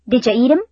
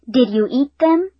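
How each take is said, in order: First: It is said fast, with reduced sounds. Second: It is said slowly, with full sounds.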